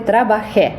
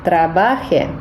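First: The stress falls on the last syllable. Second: The stress falls on the second syllable. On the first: I worked. "треба сказати «трабахе»" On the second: A subjunctive form: that I/he work. "є форма «трабахе». Це буде модо субхунтиво"

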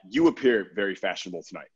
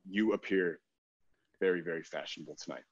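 First: It sounds like a nice, cute compliment. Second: It sounds creepy and unsettling.

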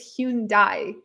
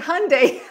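First: The name is said not rhyming with Sunday. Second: The name is said to rhyme with Sunday. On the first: The speaker calls it wrong. "I thought it was Hyundai" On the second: The speaker calls it right. "Sunday, Monday, Hyundai. Okay, Hyundai. I love that"

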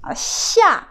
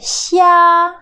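First: The syllable does not have a high level tone. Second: The syllable has a high level tone. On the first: It means to go down. "Chia, c'est descendre" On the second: It means shrimp. "Mais chia, le premier ton"

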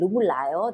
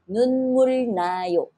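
First: The second word starts with an l sound. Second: The second word starts with an n sound. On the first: "it's easier to say"

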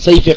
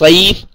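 First: The name ends with an extra final vowel. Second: The name ends on a consonant, no final vowel. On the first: The speaker calls it wrong. "It's not Saifi Khan" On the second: The speaker calls it right. "it's [name]"

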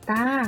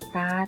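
First: The syllable has a mid level tone. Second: The syllable has a low tone. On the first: "ตออาตา" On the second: "ตาเอก"

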